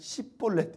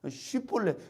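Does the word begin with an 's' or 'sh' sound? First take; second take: s; sh. First: The word begins with a plain 's' sound. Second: The word begins with a hissing 'sh' sound. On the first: The speaker calls it wrong. "이 사람들은 그냥 십볼렛 이렇게 얘기를 한 거예요" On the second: The speaker calls it right. "이 쉬바람이 나야 되는데"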